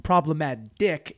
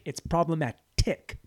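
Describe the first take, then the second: First: "problematic" slowed, T flapped almost to a D. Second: "problematic" slowed, with a clear aspirated T; crisp T. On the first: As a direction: say "problematic" with a lazy flapped T that sounds like D. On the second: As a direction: say "problematic" carefully with a crisp, sharp T. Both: Shown as a demonstration. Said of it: "when you say T fast enough, it sounds like a D".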